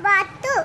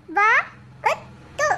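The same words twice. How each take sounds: First: Said in the usual way. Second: வாத்து sounded out very slowly in separate pieces; letter by letter. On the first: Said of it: "உச்சரித்து வாசிங்க". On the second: Shown as a demonstration. Pupil reads aloud for the teacher, வாத்து letter by letter. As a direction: break வாத்து up, a pause after each letter. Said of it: "ஒவ்வொரு எழுத்தா உச்சரித்து வாசிங்க".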